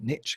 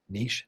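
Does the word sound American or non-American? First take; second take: American; non-American. First: The word is said the American way. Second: The word is said the non-American way. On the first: The speaker calls it wrong. "not niche" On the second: The speaker calls it right. "because we're not American"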